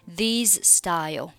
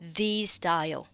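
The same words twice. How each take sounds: First: The final z of 'these' is pronounced separately. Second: The final z of 'these' is dropped, linking into style. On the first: The speaker calls it wrong. "就不需要读成these style" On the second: The speaker calls it right. "可以直接读成these style"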